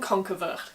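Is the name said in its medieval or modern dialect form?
medieval. The name is said in its older medieval form. "This is the medieval pronunciation"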